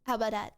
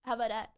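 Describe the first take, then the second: No difference in how they are said.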